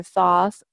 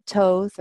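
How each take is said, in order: First: Thoth as "thawth", th first; open-vowel pronunciation. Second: Thoth as "tohth", t first; hard-t pronunciation. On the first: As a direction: say Thoth with an open aw, th at both ends. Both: Shown as a demonstration. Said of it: "many different ways of pronouncing his name".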